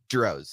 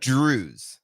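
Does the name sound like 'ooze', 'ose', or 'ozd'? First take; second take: ose; ooze. First: It rhymes with 'rose' and ends in 'z'. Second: It has an 'ooh' vowel and ends in 'z'. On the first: "it rhymes with rose" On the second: "according to my dad"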